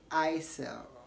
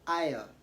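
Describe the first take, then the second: First: The S in the middle is pronounced. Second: The S in the middle is silent. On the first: The speaker calls it wrong. "Don't say aisle or whatever" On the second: The speaker calls it right. "Say aisle"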